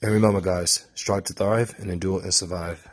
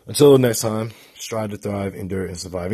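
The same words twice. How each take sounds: First: The motto in a light British accent; a hint of a British accent on the sign-off. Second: A hyped sign-off chant; sign-off mantra. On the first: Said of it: "in my British accent". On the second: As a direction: belt out the channel motto. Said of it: "I've been saying this mantra". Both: Real, not acted.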